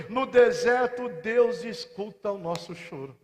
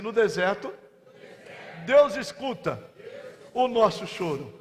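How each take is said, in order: First: Said in the usual way. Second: "No deserto," then a pause, "Deus escuta" lifted, then a pause, "o nosso choro" dropped; line it out phrase by phrase for the church to echo; spaced chant for the congregation; paced call-and-response. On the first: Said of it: "Você pode repetir comigo?". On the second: Shown as a demonstration. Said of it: "Diga assim".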